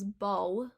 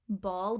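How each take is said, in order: First: The word ends with a W-like sound. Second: The word ends with a clear L sound.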